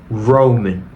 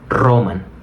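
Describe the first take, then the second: First: The r is made with the tongue pulled back. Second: The r is a quick tongue-tip trill. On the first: The speaker calls it right. "Sino Roman" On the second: The speaker calls it wrong. "no sería correcto decir Roman"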